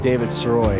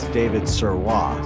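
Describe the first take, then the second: First: The surname is pronounced with English sounds. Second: The surname is pronounced with French sounds. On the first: The speaker calls it wrong. "It's not David Sirois" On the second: The speaker calls it right. "it's David Sirois. ... It's it's French"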